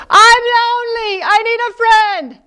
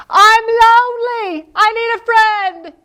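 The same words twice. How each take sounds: First: High crying echo. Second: High, louder sad wail; lonely crying. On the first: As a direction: echo the lonely wail back. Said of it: "From the other side of the pond". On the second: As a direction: cry out for a friend. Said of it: "He says". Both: Acted.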